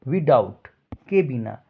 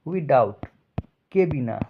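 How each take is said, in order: No difference in how they are said.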